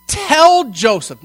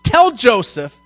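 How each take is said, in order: First: "Tell" punched, slow and loud; stress on tell. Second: "Tell" leaned on again, louder; stress on tell. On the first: Preacher stressing the command "Tell Joseph". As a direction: hit "Tell" hard, as a command. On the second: Preacher repeating the command with weight. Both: Shown as a demonstration. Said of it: "not ask Joseph".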